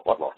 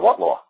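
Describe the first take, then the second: First: Said in the usual way. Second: Sharp high challenge; challenging what law. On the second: Retold or imitated. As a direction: push back hard. Judge challenges the law claim.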